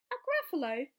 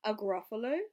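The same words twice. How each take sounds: First: Mock amazed mouse. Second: Puzzled fox. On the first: Mouse mocks the fox. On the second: Acted.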